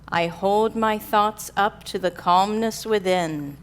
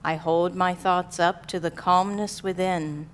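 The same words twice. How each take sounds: First: It is said in a strong, loud voice. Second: It is said in a softer, quieter voice.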